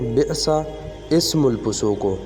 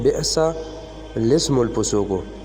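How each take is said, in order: First: No L sound is heard before 'ismu'. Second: An L sound links into 'lismu'. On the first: The speaker calls it wrong. "ज़्यादातर लोग इसको बोलते हैं" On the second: The speaker calls it right. "मगर ये है"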